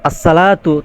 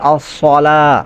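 First: The s sound is plain and light. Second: The s sound is heavy and emphatic. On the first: The speaker calls it wrong. "যদি বলেন আসসালাতু তাহলে ভুল হবে" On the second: The speaker calls it right. "সাদ দিয়ে উচ্চারণ করতে হবে"

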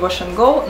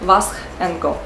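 First: The name is said in usual English style. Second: The name is read letter by letter, Czech style.

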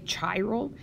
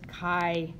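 First: The word begins with a 'ch' sound. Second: The word begins with a 'k' sound. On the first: The speaker calls it wrong. "I know it looks like C-H-I, and you probably want to say chiral, but it's not" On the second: The speaker calls it right. "it comes from Greek, the Greek letter chi, and so you would pronounce this chiral"

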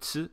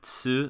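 First: The syllable is cut short without the vowel. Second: The syllable ends with a clear u vowel.

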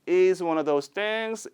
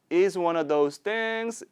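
The two takes are said the same way.

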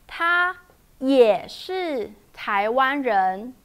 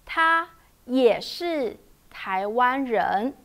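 No difference in how they are said.

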